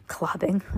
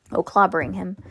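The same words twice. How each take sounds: First: Clobbing repeated softer, amused at the slip; repeating the misreading. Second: Clobbering said in full, plainly corrected; corrected word. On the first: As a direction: echo the wrong word Clobbing with a chuckle. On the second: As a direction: say clobbering properly after the slip. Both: Shown as a demonstration.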